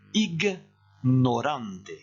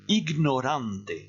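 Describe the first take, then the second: First: It is said slowly, pausing between g and n. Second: It is said quickly, without a separating pause. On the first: "je vais faire une petite pause entre le G et le N" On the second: "Je répète plus vite"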